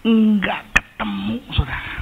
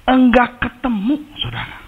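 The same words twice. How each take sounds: First: High, breathy whisper on the edge of tears; a choked, near-crying whisper; tearful whisper. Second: Despairing cry. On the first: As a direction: whisper it as if about to cry. Crying search for lost motorbike. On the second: Repeats the line out loud. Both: Retold or imitated.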